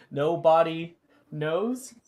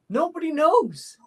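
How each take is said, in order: First: Said in the usual way. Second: High, loud, punchy; punchline delivery. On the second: Acted. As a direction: land the punchline with a bright pop. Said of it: "he says".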